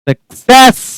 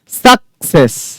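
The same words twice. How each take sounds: First: The stress is on the second syllable. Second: The stress is on the first syllable. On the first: The speaker calls it right. "आपको stress डालना है इस पर, इसको पढ़ना है normally" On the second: The speaker calls it wrong. "एस यू सी पर stress डालकर"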